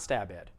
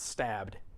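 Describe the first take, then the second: First: The ending is said as an extra syllable. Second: The ending is just a short d sound. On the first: The speaker calls it wrong. "It's not stab ed" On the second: The speaker calls it right. "It's stabbed"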